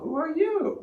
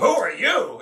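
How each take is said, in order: First: The question sounds soft and gentle. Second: The question sounds harsh and confrontational. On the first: The speaker is friendly and curious. The speaker calls it right. "say it in a gentle way" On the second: The speaker is challenging the person. The speaker calls it wrong. "it's kind of it's kind of like confrontational"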